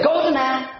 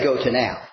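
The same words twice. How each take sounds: First: Pitched up in mock Shakespearean style; mock old-fashioned phrasing. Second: Said in the usual way. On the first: Preacher mocking a phrase nobody says today, mock quaint. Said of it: "We don't, we don't say". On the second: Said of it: "We don't say".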